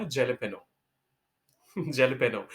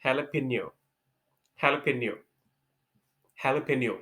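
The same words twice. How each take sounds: First: Jalapeño with a hard J, jeh-leh-PEE-no; the spelling-based jalapeño with a J; jalapeño said wrongly, with a chuckle. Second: Jalapeno as ha-la-PAY-nyo, H not J; Spanish-style jalapeño; correct jalapeño. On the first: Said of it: "मैंने इसको बोला था". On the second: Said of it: "actual pronunciation होता है". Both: Shown as a demonstration.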